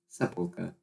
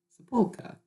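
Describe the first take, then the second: First: Said in the usual way. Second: "Sepulchre" in a high, hammed-up British accent; mock British accent. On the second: Shown as a demonstration. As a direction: say "Sepulchre" like a posh Brit, pitched way up. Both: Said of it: "sounded very British".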